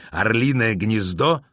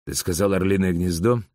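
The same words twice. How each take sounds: First: Slow, incredulous repeat of the name; alarmed demand. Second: Said in the usual way. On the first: A narrator's reading. Boris grabbing the officer by the collar, slow alarmed demand. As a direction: draw out the question in mounting alarm.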